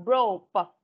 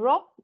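First: "rope" with a clear p at the end; final p sound. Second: "rope" said the wrong way, without the clean p; the mistaken "rope" students should avoid; wrong ending. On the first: Teacher modelling the p ending for students. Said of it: "Người ta đọc là rope". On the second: Teacher showing pupils the wrong pronunciation. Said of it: "Người ta không đọc là rope". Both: Shown as a demonstration.

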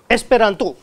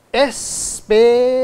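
First: Said in the usual way. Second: "Esperanto" slowly split as es-pe-ran-to; syllable by syllable. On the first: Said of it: "But if you say". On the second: Shown as a demonstration. Lecturer showing how the word divides, syllable by syllable. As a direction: draw out each syllable of "Esperanto". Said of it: "then it's Esperanto".

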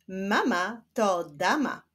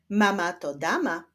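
First: Slow, evenly spaced syllables; slow first reading of the sentence. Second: Quicker and flowing; faster reading. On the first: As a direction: read it out slowly for kids to follow. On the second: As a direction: read it at a brisker tempo. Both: Shown as a demonstration. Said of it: "ale w szybszym tempie".

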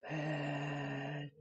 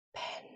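First: Very slowly. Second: Whispered. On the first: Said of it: "řekneme to strašně pomalinku". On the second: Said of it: "Tak to zase pošeptáme". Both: Shown as a demonstration.

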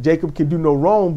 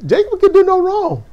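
First: Said in the usual way. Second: Put-on much higher, squealing fan-girl delight; gleeful outburst. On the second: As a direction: blurt it out like a giddy superfan. Repeats line as gleeful outburst.

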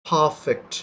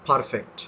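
First: পারফেক্ট said as pafekt, r silent; native pronunciation. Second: পারফেক্ট with the r sounded, arfekt; the Bengali way, r sounded; wrong pronunciation. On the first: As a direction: drop the r in পারফেক্ট. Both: Shown as a demonstration.

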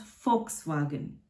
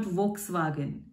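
First: "Volkswagen" starting with an F sound; German F onset on "Volkswagen". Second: "Volkswagen" starting with an English V sound; English-style initial V in "Volkswagen". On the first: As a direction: say "Volkswagen" as Folks-vagen. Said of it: "V is pronounced with an F pronunciation". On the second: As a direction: say "Volkswagen" with a voiced V first, not F. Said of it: "So it's not Volkswagen". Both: Shown as a demonstration.

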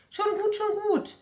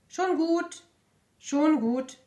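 First: Very high, loud mouse calming the frog; soothing mouse. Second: High, loud sparrow calming the others; soothing sparrow. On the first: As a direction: squeak it out to settle him. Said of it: "beruhigt die Maus". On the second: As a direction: pipe up to settle things down. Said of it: "beruhigt der Spatz". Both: Acted.

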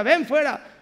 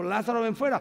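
First: Louder, higher ven fuera; commanding call. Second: Said in the usual way. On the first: Retold or imitated. Jesus commanding Lazarus out of the tomb, loud. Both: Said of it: "tuvo que ser específico".

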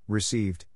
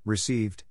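No difference in how they are said.

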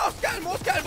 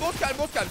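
First: Still panicky. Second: Calming down. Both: Real, not acted. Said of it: "je me calme".

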